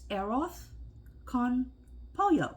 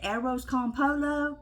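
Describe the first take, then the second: First: The double L in pollo sounds like a y. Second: The double L in pollo sounds like an l. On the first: "I Googled it to hear the, uh, the Spanish person say it" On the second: "I always say it arroz con polo, because that way I know how to spell it"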